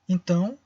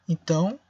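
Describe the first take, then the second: Both takes have the same delivery.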